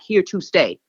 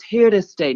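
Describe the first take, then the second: First: Every sound is crisply, overly enunciated. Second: The words are relaxed, like casual conversation. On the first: The speaker calls it wrong. "not here to stay" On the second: The speaker calls it right. "It's here to stay"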